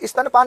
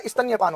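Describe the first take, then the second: First: स्तनपान with a plain n before पान; wrong form demonstrated. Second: स्तन्यपान with "nya" before पान; correct form demonstrated. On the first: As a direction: say स्तनपान as "istan-paan". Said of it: "स्तनपान नहीं होता". (स्तनपान में "न" के बाद "य" नहीं) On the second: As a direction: say स्तन्यपान as "istanya-paan". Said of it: "स्तन्यपान होता है". (स्तन्यपान में "न्य" साफ़ बोलें) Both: Shown as a demonstration.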